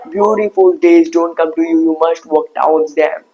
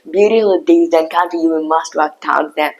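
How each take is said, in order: First: The vowel in don't is rounded, like oh. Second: The vowel in don't is said with spread lips. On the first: The speaker calls it wrong. "as you do in Indian accent ... your mouth shape becomes O" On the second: The speaker calls it right. "But now spread your mouth like eh"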